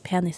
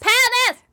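First: The word is said very quietly. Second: The word is said much louder. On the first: "hvis du sier penis helt stille" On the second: "så skal man si det høyere og høyere"

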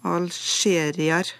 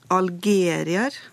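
First: The consonant after 'al' is a sh-sound. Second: The consonant after 'al' is a hard g. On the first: "vanlig uttale er som kjent med skjelyd" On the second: "Nå sa jeg det med G da"

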